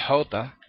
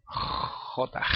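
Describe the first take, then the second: First: "J" as jota with a light breathy h; soft aspirated h opening "J", little scrape; unscraped soft jota. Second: "J" as jota with a long rasped kh; drawn-out throat scrape opening "J"; scraped hard jota. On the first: Teacher showing what it is less like, soft h jota. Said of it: "No tanto J". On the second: Teacher showing the sound wanted, strongly scraped jota. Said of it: "sino J". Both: Shown as a demonstration.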